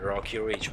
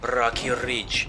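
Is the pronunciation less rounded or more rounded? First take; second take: more rounded; less rounded. First: The words are said with more rounded sounds. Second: The words are said with less rounded sounds. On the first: The speaker calls it right. "Böyle biraz daha yuvarlayarak" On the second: The speaker calls it wrong. "Tabii böyle değil de"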